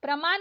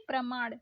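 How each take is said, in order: First: प्रमाण ending in plain न; wrong dental N. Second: प्रमाण ending in curled-tongue ण; correct retroflex ण. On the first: Teacher showing learners the mistake, dental-N प्रमाण. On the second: Teacher correcting learners, retroflex प्रमाण. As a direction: curl back for ण in प्रमाण. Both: Shown as a demonstration. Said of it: "नहीं".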